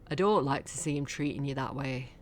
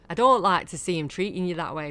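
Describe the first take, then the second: First: It is said in a deeper voice. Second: It is said in a higher voice.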